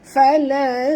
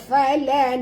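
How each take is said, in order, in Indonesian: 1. Bunyi n tersembunyi dan berdengung. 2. Bunyi n terdengar jelas, tidak tersembunyi. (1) "Sorokkan bunyi nun ini pada kadar separuh ke dalam huruf ta disertai dengung" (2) "dengung tapi tak sorok, tak boleh"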